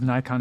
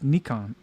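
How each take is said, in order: First: "Nikon" said as NYE-kon; "Nikon" the US way, first syllable rhyming with sky; American pronunciation. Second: "Nikon" said as NEE-kon; "Nikon" as in Japan, first syllable rhyming with knee; Japanese-style pronunciation. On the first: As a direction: say "Nikon" with a long I, like eye. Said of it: "is Nikon in the U S". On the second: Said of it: "is Nikon in Japan". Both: Shown as a demonstration.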